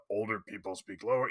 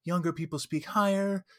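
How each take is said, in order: First: Put-on quiet, lowered older person. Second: Put-on lightly pitched-up young person; higher, younger voice. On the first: Game master demonstrating how old characters sound, lower. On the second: Game master demonstrating how young characters sound, higher. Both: Shown as a demonstration.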